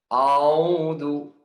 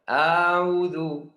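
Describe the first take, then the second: First: The opening hamzah sounds heavy and thick. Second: The opening hamzah is stretched out long. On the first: "Dibaca huruf hamzah tebal" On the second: "dibaca huruf hamzah panjang"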